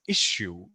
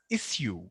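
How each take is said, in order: First: The middle consonant is a 'sh' sound. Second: The middle consonant is an 's' sound. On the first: This is the widely known pronunciation. "most of us know this word as issue with the hard sha sound" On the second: This is the British pronunciation. "Britishers actually pronounce this as issue. There is no sha sound. They just say it like s"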